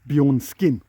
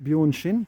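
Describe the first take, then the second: First: The middle of the name sounds like 'sk'. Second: The middle of the name sounds like 'sh'. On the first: "it actually looks like it's written Bjornskin" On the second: "I'm pronouncing it Bjornshin, which I'm reliably informed is the right way to do it"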